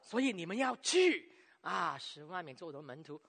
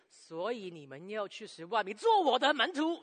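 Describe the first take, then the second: First: The emphasis falls on 去, followed by a pause. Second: The emphasis falls on 做门徒, without a pause. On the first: Going is presented as the most important action. The speaker calls it wrong. "不要说所以你们要去。" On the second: Making disciples is presented as the most important action. The speaker calls it right. "那这个就是对的讲法了。因为中心点呢，就放在这个做门徒里边。"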